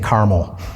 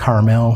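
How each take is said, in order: First: It is said the local Indiana way. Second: It is said the way most other regions say it.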